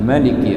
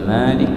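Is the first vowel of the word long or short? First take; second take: short; long. First: The first vowel is kept short. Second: The first vowel is drawn out long. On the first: The king of the Day of Reckoning. "tanpa mad atau bil qasr" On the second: The owner of the Day of Judgement. "dibaca Malik panjang pakai alif setelah mim atau pakai mad"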